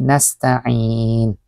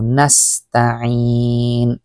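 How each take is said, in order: First: "nasta'in" with the ain blurred into the ta; the wrong way, ain dropped; wrong pronunciation. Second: "nasta'in" very slow, with a clear ta then ain; the right way, slowly; correct pronunciation. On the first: Teacher shows students a blurred "nasta'in". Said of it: "Hindi nasta'in". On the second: Teacher shows students a clear "nasta'in". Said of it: "ta sa ain". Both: Shown as a demonstration.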